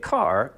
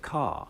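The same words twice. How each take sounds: First: "car" with a hard North American R; R sounded. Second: "car" as a long open "cah", no R; R dropped. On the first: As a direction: say "car" with the R pronounced at the end. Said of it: "you're not gonna get car". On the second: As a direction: say "car" with the back of the tongue down and the R silent. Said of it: "you're gonna get car". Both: Shown as a demonstration.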